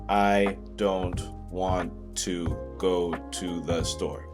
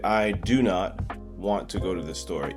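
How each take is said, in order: First: The negative is contracted to one syllable, 'don't'. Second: The negative is said in full as 'do not'. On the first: The speaker calls it right. "read a sentence that was contracted" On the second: The speaker calls it wrong. "People in Vietnam would say"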